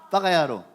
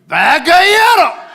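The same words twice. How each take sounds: First: It is said mildly, without any insulting edge. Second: It is said harshly, with an insulting edge. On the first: It is a light teasing word, not an insult. "그거는 욕을 안 느끼잖아" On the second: It works as a real insult. "일본 사람들 빠가야로 이렇게 얘기해"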